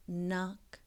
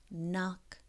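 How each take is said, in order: Both takes have the same delivery.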